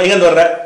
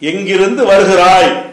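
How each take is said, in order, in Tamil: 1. இந்த சொற்றொடர் சுருக்கமான பேச்சு வடிவில் பேசப்படுகிறது. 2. இந்த சொற்றொடர் முழு முறையான வடிவில் பேசப்படுகிறது. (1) "நம்ம எப்படி பேச்சில் விடுறோம்" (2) "இதுதான் தமிழ். எழுத்துல அப்படிதான் கொடுப்பாங்க"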